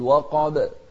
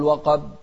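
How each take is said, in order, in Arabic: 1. ينتهي الحرف b الأخير بارتداد قصير بصدى. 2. ينتهي الحرف b الأخير بوقفة صامتة عادية. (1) "الباء هني من أحرف القلقلة، فنقول وقاب" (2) "ما نقول وقاب"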